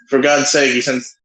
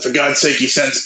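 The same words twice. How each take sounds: First: It is said in the speaker's ordinary voice. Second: It is said in a put-on character voice.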